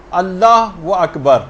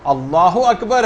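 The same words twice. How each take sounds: First: اللہ و اکبر with an added و between the words, said slowly; wrong takbir. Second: اللہ اکبر with no و, the words flowing together; correct takbir. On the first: Teacher showing the mistaken اللہ و اکبر, slow. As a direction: drag out اللہ و اکبر with a clear و joining them. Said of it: "اللہ و اکبر نہیں". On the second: Teacher giving listeners the correct اللہ اکبر, measured. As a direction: say اللہ اکبر cleanly, no added و. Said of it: "اللہ اکبر ہے یہ". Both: Shown as a demonstration.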